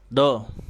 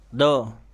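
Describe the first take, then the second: Both takes have the same delivery.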